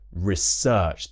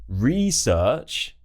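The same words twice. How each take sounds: First: The stress is on the second syllable. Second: The stress is on the first syllable. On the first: It is used as a verb. "The stress shifts to the second syllable" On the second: It is used as a noun. "the noun version"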